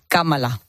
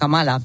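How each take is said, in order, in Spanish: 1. El acento va en la primera sílaba. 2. El acento va en la segunda sílaba. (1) "Si fuese una palabra estrújula, como si pusiésemos el acento en la Kamala" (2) "en España todos decimos ya Kamala"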